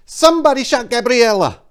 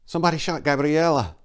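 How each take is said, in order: First: Tearful shriek, far higher and louder. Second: Holding back tears, pitched higher; a tremble of shock, still contained; teary. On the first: Maria shrieking the news at Enrico in tears. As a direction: scream the news at him, streaming tears. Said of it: "she shrieked back the answer". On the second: Maria telling Enrico the news, near tears. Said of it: "tears welling in her eyes". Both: Acted.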